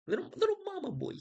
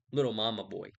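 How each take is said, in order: First: Put-on "Little, little mama boy" in a much higher squeaky baby voice; mocking baby voice. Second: Said in the usual way. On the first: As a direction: tease him like a whiny toddler. Mocking Achilles as mama's boy.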